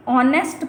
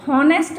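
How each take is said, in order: First: ऑनेस्ट said with no h sound, starting on the vowel; silent h. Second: हॉनेस्ट said with a sounded h at the start; wrong voiced h. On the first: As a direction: say ऑनेस्ट as aw-nest, h left silent. (ऑनेस्ट बिना ह की आवाज़ के) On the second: (हॉनेस्ट में ह की आवाज़ साफ़ बोलते हुए) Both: Shown as a demonstration. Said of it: "इसको हॉनेस्ट नहीं पढ़ेंगे".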